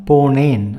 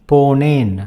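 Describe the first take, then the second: No difference in how they are said.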